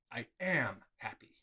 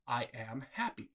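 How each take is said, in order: First: Hushed whisper. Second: Said in the usual way. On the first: Shown as a demonstration. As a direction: breathe the words out as a secret. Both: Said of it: "what was actually said... is".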